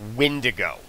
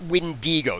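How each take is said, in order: First: The middle syllable is not said as 'dee'. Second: The middle syllable is said as 'dee'. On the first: The speaker calls it right. "The actual pronunciation for that creature in the game is" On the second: The speaker calls it wrong. "It's not Wendigo. ... It isn't W E N D E E G O"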